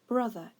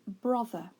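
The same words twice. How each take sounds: First: The first vowel is the usual everyday one. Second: The first vowel sounds unusual and letter-based. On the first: The speaker calls it right. "in actual fact we would say brother instead" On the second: The speaker calls it wrong. "If we pronounced it the way it's spelt"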